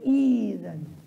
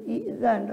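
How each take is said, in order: First: The vowel glides into z without a catch. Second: A glottal catch comes before the z sound. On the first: The speaker calls it right. "tapi izan ... Hamzanya yang berubah jadi ya" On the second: The speaker calls it wrong. "bukan i'zan"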